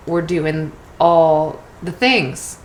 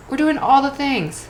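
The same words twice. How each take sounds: First: Said in the usual way. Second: "all" pushed up high and falling; higher, emphatic repeat. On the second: Shown as a demonstration. Telling busy listeners they're doing everything, higher and emphatic. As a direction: lift the whole line high, stress on "all".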